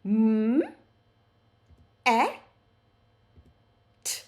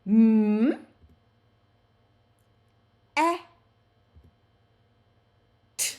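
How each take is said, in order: First: Each sound spaced out, "M", "a", "t"; sounded out again. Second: Each sound stretched apart, "M", "a", "t"; segmented phonics demo; sounded out letter by letter. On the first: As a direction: repeat "M, a, t" sound by sound. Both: Shown as a demonstration. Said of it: "Let's do that again".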